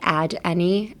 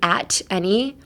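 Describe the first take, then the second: First: The consonant sounds like a soft d. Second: The consonant is a clear, crisp t sound. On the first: "I'm pronouncing it more like a D, like add any" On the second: "instead of saying at any"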